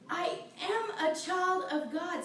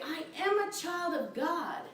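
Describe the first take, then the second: First: Slow, half-sung, from the soul; sung affirmation. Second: Said in the usual way. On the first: Shown as a demonstration. Minister showing the congregation how to affirm, half-sung. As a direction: sing it out slowly, heartfelt. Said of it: "Say it with your soul". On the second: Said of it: "the minute you say".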